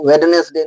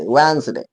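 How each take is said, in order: First: वेडनेसडे with every letter sounded, "wed-nes-day"; wrong pronunciation. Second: वेडनेसडे said softly as "wenz-day", no d sound; correct pronunciation. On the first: Teacher showing the mistaken way to say वेडनेसडे. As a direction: spell out वेडनेसडे as it is written. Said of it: "किसी हाल में होता नहीं". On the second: Teacher modelling the right way to say वेडनेसडे, softly. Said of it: "ऐसा नहीं". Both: Shown as a demonstration.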